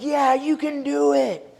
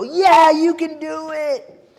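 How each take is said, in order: First: High, slow crowd cheer; mock crowd yelling yes. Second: Much higher, louder, slow drawn-out cheer; roaring crowd. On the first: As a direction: call it back like an eager crowd. Crowd answering the tightrope walker. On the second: Retold or imitated. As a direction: bellow it like the whole crowd is sure. Crowd answering louder second time.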